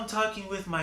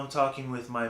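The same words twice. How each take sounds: First: The voice sounds very airy and light. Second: The voice sounds neutral, between dark and light. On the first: "it's very airy, it's very light" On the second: "less dark, a little bit more neutral"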